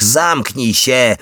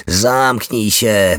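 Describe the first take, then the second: First: Higher, drawn-out angry cry, held back; narrated roar. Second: Drawn-out, restrained mock yell; mild narrated yell. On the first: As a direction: stretch the order out at a raised pitch, short of a real roar. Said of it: "ryknęła". (podniesiony, przeciągły, nieco stłumiony ryk) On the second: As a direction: stretch the order out without really screaming. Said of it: "wrzasnęła". (powściągliwy, przeciągły krzyk) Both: A narrator's reading.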